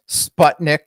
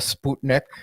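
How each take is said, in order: First: The word has an American pronunciation. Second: The word has its Russian pronunciation. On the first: This is the common way in the US. The speaker calls it wrong. "most Americans say" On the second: This is how the word originally sounds. The speaker calls it right. "instead of"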